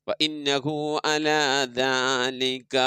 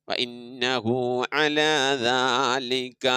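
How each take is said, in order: The two takes are said the same way.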